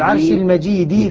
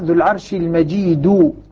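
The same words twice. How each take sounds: First: The last word ends with an i vowel. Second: The last word ends with a u vowel. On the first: The word describes the throne. "يقرؤونها بجر كلمة الكسر الدال من المجيد" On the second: The word describes God. "بقية القراء ... على أنها لله سبحانه وتعالى"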